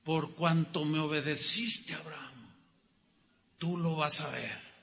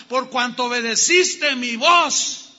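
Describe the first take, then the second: First: Quiet, lower, intimate repeat; the preacher softly echoing God's words to the congregation. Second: God proclaiming the blessing to Abraham, loud; climactic proclamation. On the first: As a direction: bring it down to a hush. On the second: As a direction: declare it with full force. Jehovah's oath climax. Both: Acted.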